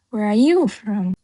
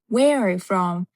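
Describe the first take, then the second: First: The stress falls on are and you. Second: The stress falls on where and from. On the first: The listener might miss the question's message. The speaker calls it wrong. "You hear are you" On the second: The question's message comes across clearly. The speaker calls it right. "It's very important where and the from"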